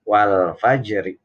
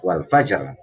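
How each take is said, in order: First: It ends on a vowel with a thin r. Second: It stops on a heavy r consonant. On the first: The reading continues into the next verse. "kalau dibacanya sambung wasol maka menjadi qalqa apa roknya rok tarkik wal fajri tipis" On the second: The reading stops at this point. "Kalau dibaca waqaf wal fajar roknya harus terdengar"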